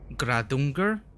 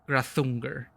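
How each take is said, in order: First: The middle consonant is a d sound. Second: The middle consonant is a th sound.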